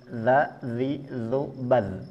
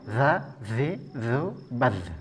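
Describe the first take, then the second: First: The consonant is voiced with no escaping breath. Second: The consonant is voiced with much escaping breath. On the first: The speaker calls it right. "Ini betul" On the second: The speaker calls it wrong. "Yang salah, ... Ini kerasa banget di sini"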